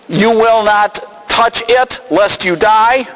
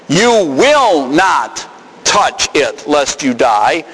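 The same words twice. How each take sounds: First: Said in the usual way. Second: "You will not touch it" slow, with "not" drawn out; stress on NOT. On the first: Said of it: "Some of you translated those lo". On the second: Shown as a demonstration. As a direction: weigh each word of "You will not touch it, lest you die". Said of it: "Lo negates an indicative statement".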